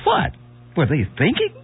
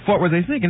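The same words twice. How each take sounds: First: It has a short pause after 'what'. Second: It runs on with no pause after 'what'. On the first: The speaker calls it right. "you left out the punctuation of the comma" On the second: The speaker calls it wrong. "you mispronounced it. You said"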